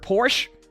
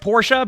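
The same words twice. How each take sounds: First: The name is said the American way. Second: The name is said in a non-American way. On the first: "in America we always heard Porsche" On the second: "that's apparently how you pronounce it"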